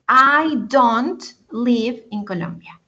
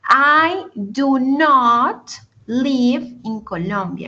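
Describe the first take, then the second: First: Do not is contracted into one syllable. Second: Do not is said as two full words.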